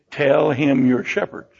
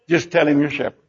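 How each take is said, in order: First: Low, slow and deliberate; slow instruction. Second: Low, offhand aside after a big promise; casual instruction. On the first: Joseph coaching his family for Pharaoh, slow and deliberate. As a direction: spell out the instruction slowly. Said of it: "And so he says". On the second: Joseph coaching his family for Pharaoh, casual and low. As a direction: drop down and toss it off casually. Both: Acted.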